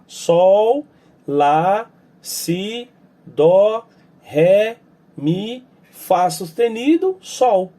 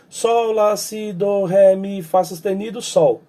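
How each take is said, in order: First: The note names are said at a slower pace. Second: The note names are said at a faster pace.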